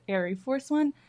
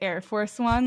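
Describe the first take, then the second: First: The first word is said like 'airy', two syllables. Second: The first word is said like 'air', one syllable. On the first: The speaker calls it right. "but it's Airy Force One. I think that's how you pronounce it" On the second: The speaker calls it wrong. "I was definitely calling it the Air Force One"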